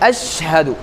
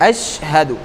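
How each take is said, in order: Both takes have the same delivery.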